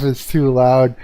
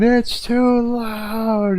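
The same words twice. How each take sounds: First: Said in the usual way. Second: Much higher, slow, drawn-out mock complaint; mocking yelling lady. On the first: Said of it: "I'm like". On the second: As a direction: stretch each word out high like an annoyed neighbour. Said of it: "Some lady yelling".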